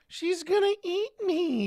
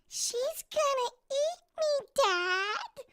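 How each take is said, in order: First: It is said in the speaker's normal voice. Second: It is said in a put-on character voice.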